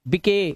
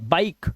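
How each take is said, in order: First: A vowel is sounded after the final consonant. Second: The word ends on the consonant, no vowel. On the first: The speaker calls it wrong. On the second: The speaker calls it right.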